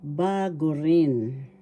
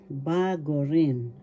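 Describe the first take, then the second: No difference in how they are said.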